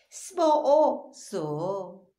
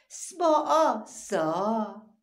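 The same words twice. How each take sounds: First: سباع سو stretched very slowly and louder; drawn-out syllables. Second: سباع سا stretched very slowly and louder; drawn-out syllables. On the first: Teacher sounds out سباع سو slowly and louder for children. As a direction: drag out سباع سو. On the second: Teacher sounds out سباع سا slowly and louder for children. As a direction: drag out سباع سا. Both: Shown as a demonstration. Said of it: "سباع چسبان سه".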